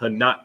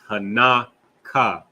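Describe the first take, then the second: First: The word ends on a consonant sound. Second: The word ends on a vowel sound. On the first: The speaker calls it wrong. "it's not Hanak" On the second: The speaker calls it right. "it's Hanaka"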